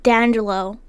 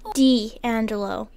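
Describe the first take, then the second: First: The name is run together as one word. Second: The name is said as two separate parts. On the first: The speaker calls it wrong. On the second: The speaker calls it right.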